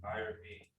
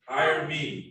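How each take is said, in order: First: It is said with little enthusiasm. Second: It is said with more enthusiasm.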